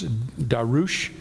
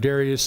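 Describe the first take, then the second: First: The name ends with an 'oosh' sound. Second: The name ends with an 'ee-us' sound. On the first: This is the original form of the name. "the actual uh, pronunciation of Darius is Darush" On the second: This is the familiar English form. "I might just stick with Darius"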